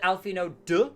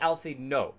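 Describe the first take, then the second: First: The name ends with a clear d sound. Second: The name ends with no d sound. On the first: "some people have said Alphino duh" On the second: "like without the the d at the end"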